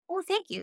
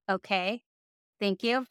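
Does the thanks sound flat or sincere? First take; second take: sincere; flat. First: The thanks sounds warm and sincere. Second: The thanks sounds flat and awkward.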